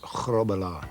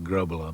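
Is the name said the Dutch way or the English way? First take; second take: Dutch; English. First: Throaty G at the back and rolled R sounds. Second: Plain English sounds, no throaty G or rolled R. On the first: It is the real, original pronunciation. "Get the, the back of the throat going and roll the R's for the, the Dutch way of doing it" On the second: It is easier for English speakers to say. "Here in Britain you call it Grobbelaar because it's easier for the English pronunciation"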